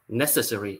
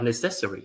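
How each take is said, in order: First: The stress is on the first syllable. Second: The stress is on the second syllable. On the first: "the first syllable" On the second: "or the second one"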